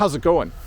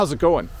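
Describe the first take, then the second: First: The words are contracted and run together. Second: The words are contracted and run together.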